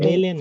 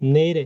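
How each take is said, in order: First: The consonant is a clear l sound. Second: The consonant is a light r sound. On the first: The speaker calls it wrong. "অনেকে কিন্তু বলবে কি নেইল, এ" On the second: The speaker calls it right. "বাচ্চিমটা স্বরবর্ণের সাথে গিয়ে উচ্চারিত হবে"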